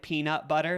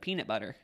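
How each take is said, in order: First: Every sound is pronounced carefully and fully. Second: The sounds are relaxed and partly dropped. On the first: The speaker is trying to sound fancy. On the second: This is the speaker's everyday way of saying it.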